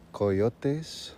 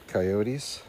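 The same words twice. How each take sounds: First: "Coyotes" said as koh-YOH-tes; Spanish-style pronunciation. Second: Said in the usual way. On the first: Pretend. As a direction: say "Coyotes" with a pure first O and an "-es" ending, Spanish-style. Repeats word with Spanish-like sounds.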